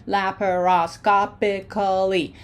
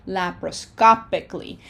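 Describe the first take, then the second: First: "Laparoscopically" slowly, every syllable separate and fully voiced; slow, carefully segmented "Laparoscopically"; broken into syllables. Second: Said in the usual way. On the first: Shown as a demonstration. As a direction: sound out "Laparoscopically" beat by beat. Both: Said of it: "Breaking it up into syllables".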